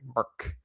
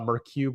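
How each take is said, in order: First: The name is said as one syllable, 'merc'. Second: The name is said with two syllables, ending in 'cue'. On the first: The speaker calls it right. "Short for mercenary" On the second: The speaker calls it wrong. "it's not pronounced uh"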